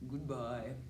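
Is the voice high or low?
low. It is said in a low voice.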